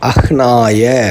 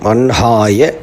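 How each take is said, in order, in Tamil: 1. h ஒலி n-க்கு முன்னே வருகிறது. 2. h ஒலி n-க்கு பின்னே வருகிறது. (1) "எல்லோரும் நார்மலாக அப்படியே தான் ப்ரொனவுன்ஸ் பண்ணுறோம்" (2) "அன்ஹாயன்னு இது சொல்ல வேண்டியது"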